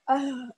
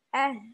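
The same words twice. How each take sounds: First: The h is pushed from deep in the chest. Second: The h comes only from the lower throat. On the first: The speaker calls it wrong. "kalau mengucapkan H sampai ke dada" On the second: The speaker calls it right. "Sebatas di tenggorokan bawah"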